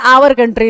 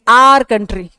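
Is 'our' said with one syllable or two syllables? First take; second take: two syllables; one syllable. First: 'Our' is said with two syllables, like 'ow-er'. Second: 'Our' is said with one syllable, like 'ar'. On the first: The speaker calls it wrong. "ना ये आवर होता है। हम कहते हैं आवर country, नहीं" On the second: The speaker calls it right. "इसकी pronunciation एक ही होती है, आर"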